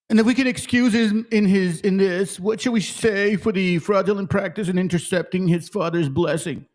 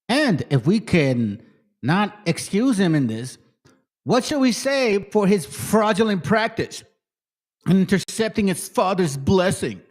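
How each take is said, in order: First: It is read in a put-on white-dude voice. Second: It is read in his own normal voice.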